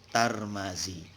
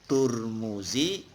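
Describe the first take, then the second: First: The name is said with a vowels. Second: The name is said with u vowels. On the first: "kalau dibaca tar ma" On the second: "kalau dibaca tur mu"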